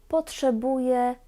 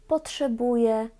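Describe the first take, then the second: Both takes have the same delivery.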